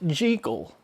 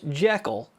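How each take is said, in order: First: The name is said the author's preferred way. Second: The name is said the common American way. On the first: "Robert Louis Stevenson argued that it was pronounced Jekyll" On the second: "Most Americans, myself included, have always pronounced the doctor's name as Jekyll"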